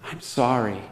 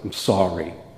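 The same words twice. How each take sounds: First: The apology is said in a genuine, sincere tone. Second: The apology is said in a grudging, insincere tone. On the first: The child truly means the apology. The speaker calls it right. "For the one, you're like, "Thank you."" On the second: The child does not mean the apology. The speaker calls it wrong. "For the other one, you're like, "Let's try that again"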